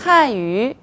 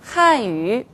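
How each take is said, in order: The two takes are said the same way.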